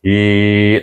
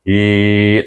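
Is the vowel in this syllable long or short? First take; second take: long; long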